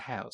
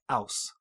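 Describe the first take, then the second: First: The word starts with an h sound. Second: The word starts without an h sound. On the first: "instead of have and house" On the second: "they don't um, aspirate their H's a lot. So they say like aus"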